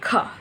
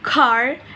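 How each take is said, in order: First: The word ends without any R sound. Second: The word ends with a clear R sound. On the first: "while in British English it might sound more like ka ka" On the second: "in American English, the word car car is pronounced with a clear clear R sound"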